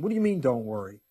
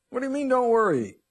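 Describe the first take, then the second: First: Mildly incredulous objection, near normal pitch; doubting listener. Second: High, loud incredulous outburst; exasperated listener. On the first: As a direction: question it like a doubtful churchgoer. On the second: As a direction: cry it out like an exasperated churchgoer. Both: Acted. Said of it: "you may be sitting there going".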